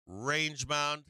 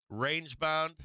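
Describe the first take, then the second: No difference in how they are said.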